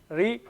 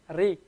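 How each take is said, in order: First: The r is flicked off the tongue tip. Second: The same.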